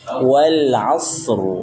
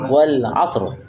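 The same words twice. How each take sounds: First: The s is drawn out and flowing. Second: The s is cut short with a bounce. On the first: The speaker calls it right. "berikan dia sifatnya, sifat rakhwah, mengalirnya suara" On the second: The speaker calls it wrong. "jangan langsung wal asr, itu seakan-akan qalqalah"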